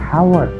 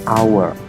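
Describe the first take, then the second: First: The word starts with an audible h sound. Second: The word starts with a vowel sound. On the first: The speaker calls it wrong. "bukan dibaca hour" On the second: The speaker calls it right. "pengucapannya inilah dimulai dari vokal"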